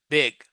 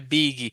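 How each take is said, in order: First: The word ends on the G with no vowel. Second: An extra vowel is added after the final G. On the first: The speaker calls it right. "So the I here has an I sound" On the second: The speaker calls it wrong. "a lot of people say biggie"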